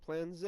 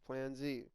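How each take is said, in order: First: The letter is said as zed. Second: The letter is said as zee. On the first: The speaker calls it wrong. "It's not" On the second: The speaker calls it right.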